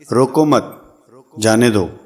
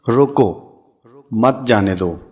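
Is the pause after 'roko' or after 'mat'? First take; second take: after mat; after roko. First: The pause comes right after 'mat'. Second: The pause comes right after 'roko'.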